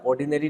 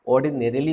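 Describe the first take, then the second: First: "ऑर्डिनरी" ending in "री", without "ली"; mistaken short form. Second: "ऑर्डिनरीली" with the added "-ली" ending; corrected pronunciation. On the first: Teacher quoting a student's error, short form ऑर्डिनरी without ली. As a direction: drop the final "ली": "ऑर्डिनरी". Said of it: "ऑर्डिनरी नहीं होता है". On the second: Teacher correcting a student's word, corrected pronunciation of ऑर्डिनरीली. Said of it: "मेरे teacher ने बोला". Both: Retold or imitated.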